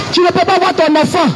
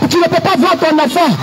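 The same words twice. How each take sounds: The two takes are said the same way.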